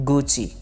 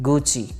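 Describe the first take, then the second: The two takes are said the same way.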